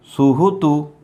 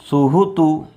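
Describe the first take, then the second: No difference in how they are said.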